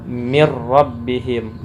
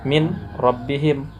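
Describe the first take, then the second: First: The n sound merges into the r. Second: The n sound is kept before the r.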